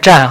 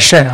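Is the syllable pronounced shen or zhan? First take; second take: zhan; shen. First: The syllable begins with zh and ends in an. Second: The syllable begins with sh and ends in en. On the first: The speaker calls it right. "那字念湛哈" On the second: The speaker calls it wrong. "不念肾啊"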